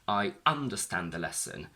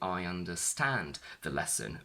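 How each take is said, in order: First: The stress shifts to the first syllable, un. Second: The stress stays on the last syllable, stand. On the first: The speaker calls it wrong. "We don't say" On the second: The speaker calls it right. "No, we still say"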